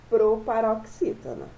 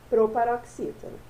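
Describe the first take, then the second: No difference in how they are said.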